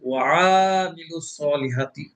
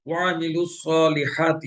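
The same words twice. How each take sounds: First: The vowel after the ayn is drawn out long. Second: The vowel after the ayn is short. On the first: The speaker calls it wrong. "টেনে পড়ি" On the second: The speaker calls it right. "আইনের উপরে হরকত আছে জবর"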